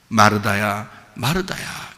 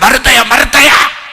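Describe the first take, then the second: First: It is said in a warm, loving tone. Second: It is said in a harsh, scolding tone.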